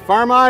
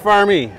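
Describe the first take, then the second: First: The name ends with an 'eye' vowel sound. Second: The name ends with an 'ee' vowel sound. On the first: The speaker calls it wrong. "Is it Farm-I or Farm-E?" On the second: The speaker calls it right.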